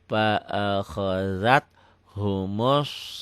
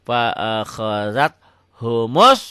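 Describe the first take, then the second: First: The words are read slowly and smoothly without jerks. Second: The words are pushed out with abrupt, jerky force. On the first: "yang pelan, nggak usah dihentak" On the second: "kalau dihentak ... kayak kaget ya, kayak api nyambar bensin"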